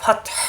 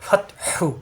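First: ফাতহ ending on a pressed silent হ; stopped reading. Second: ফাতহু with the final হু kept, breathy; joined reading. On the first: Teacher showing the pause form, pressed ending. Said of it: "হা চাপ দিতে হবে". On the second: Teacher showing the joined form, soft. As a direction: keep the হু on ফাতহু when joining. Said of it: "অন্য আয়াতের সাথে মিলাতে". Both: Shown as a demonstration.

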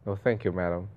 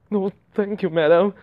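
First: Said in the usual way. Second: Higher, put-on polite refusal; raised-pitch refusal. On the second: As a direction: lift the pitch and push "madam" louder. Redoes polite refusal after "I mean.

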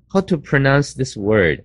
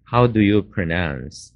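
First: Brusque, bossy ask; impolite, ordering version of the question; commanding demo. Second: Slow, careful classroom read; polite way to ask, said slowly; polite model question. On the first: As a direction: sound like you're giving an order. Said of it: "好像命令人家一样". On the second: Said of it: "这个字你怎么发音呢". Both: Shown as a demonstration.

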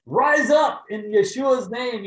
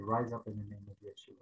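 First: Slow booming shout, much higher and louder; mighty healing command. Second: Soft, lower, hushed command; timid prayer. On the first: Pretend. Preacher imagines commanding the paralyzed woman, booming shout. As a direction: command her to rise like an apostle. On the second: Retold or imitated. Kneeling by the car, softly praying over the woman. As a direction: say it gently, almost to yourself.

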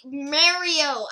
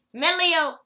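First: "Mario!" said with an r, MEH-ree-oh, shouted; corrected name. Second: "Melio!" said with an e sound and an l, shouted high; wrong name. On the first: Corrects himself on the name, shouts "Mario!". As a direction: fix it to "Mario!" with an r sound. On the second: Unsure of the name, shouts "Melio!" as MEH-lee-oh. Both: Real, not acted. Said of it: "I don't know how to pronounce it".

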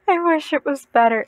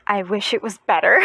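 First: Repeating it with stronger emphasis; emphatic repeat. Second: Said in the usual way. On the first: Real, not acted. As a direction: lean into the wish.

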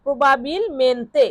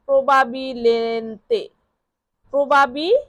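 First: Said in the usual way. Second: প্রবাবিলেন্তে blended slowly, syllable by syllable; slow blending. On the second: Shown as a demonstration. Teacher to students, slowly blending the spelled word. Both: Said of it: "Bangla উচ্চারণ লেখা আছে এখান থেকেও পড়ে নিতে পারেন".

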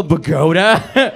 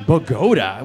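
First: "Bogota" drawn out slowly, louder, rising. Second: "Bogota" as /pəɡoʊtə/, mock English stress; flat tourist "Bogota" with a falling end; Bogota, anglicized. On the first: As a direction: spell out "Bogota" slowly for a confused listener. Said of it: "Oh, Bogota". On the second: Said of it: "the capital, Bogota". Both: Shown as a demonstration.

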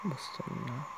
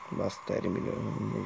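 First: Said in the usual way. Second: "Busz terminál" said as English "bus terminal"; english accent in hungarian. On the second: Shown as a demonstration. ("Busz terminál" angolos kiejtéssel) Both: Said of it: "egy angolos kiejtéssel".

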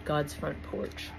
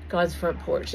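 First: Slow spoken title. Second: Title declared louder, opening the poem. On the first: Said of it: "this was actually a dream I had". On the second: Preacher opening his dream poem, declaiming the title loudly. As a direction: proclaim the title like a curtain rising. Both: Shown as a demonstration.

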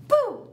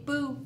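First: Sudden loud high boo; startling boo. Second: Said in the usual way. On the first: Shown as a demonstration. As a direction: burst out with a big boo. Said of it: "Good job".

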